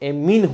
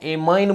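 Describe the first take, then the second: First: The last syllable sounds like 'mean'. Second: The last syllable sounds like 'mine'. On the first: The speaker calls it right. "एमीन होता है इसको" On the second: The speaker calls it wrong. "इसको भैया आपको पता है एमाइन बोलते हैं, मगर एक्चुअल वर्ड इसका एमाइन नहीं है"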